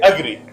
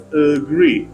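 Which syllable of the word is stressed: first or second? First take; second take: first; second. First: The stress is on the first syllable. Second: The stress is on the second syllable. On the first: The speaker calls it wrong. "They put stress on the first syllable" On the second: The speaker calls it right. "Stress is on second syllable"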